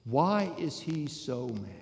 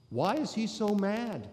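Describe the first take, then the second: First: Slow, measured question, falling at the end. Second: Higher pitched, pressing question with stress on "is"; raised question. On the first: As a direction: ask it slowly, letting it sink in. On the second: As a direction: push the question up, leaning on "is". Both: Shown as a demonstration.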